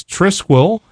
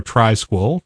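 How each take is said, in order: First: "Trisquel" with a short i, TRISS-kwel; first pronunciation variant. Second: "Trisquel" with a long i, TRY-skwel; alternative pronunciation. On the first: Host offering one of two ways to pronounce a distro name, "Trisquel" as TRISS-kwel. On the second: Host offering the other way to pronounce a distro name, "Trisquel" as TRY-skwel. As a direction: say "Trisquel" with its first syllable like "try". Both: Shown as a demonstration. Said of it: "depending on how you prefer to pronounce that".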